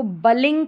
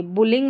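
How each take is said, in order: First: बलिंग said with a short open a, like \"bulling\" read wrongly; the mistaken reading, बलिंग with an a sound; wrong pronunciation shown. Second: बुलिंग with a short u as in \"bull\"; correct pronunciation. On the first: Teacher showing students the wrong reading, बलिंग with an a sound. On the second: Teacher giving students the right reading, बुलिंग with a short u. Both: Shown as a demonstration. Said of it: "करके नहीं पढ़ेंगे".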